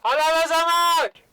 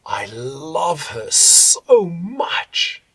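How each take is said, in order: First: High, loud stretched vowels in "I love her so much". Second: Slow, breathy weight on the l, s, m and ch of "I love her so much"; energy on consonants. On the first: Coach shouts love on the vowels. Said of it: "it'll be very loud". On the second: Coach tenderly leaning into consonants of "I love her so much". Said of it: "all my energy, breath ... on the consonants". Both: Shown as a demonstration.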